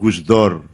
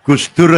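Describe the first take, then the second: First: The last vowel sounds like o. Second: The last vowel sounds like u.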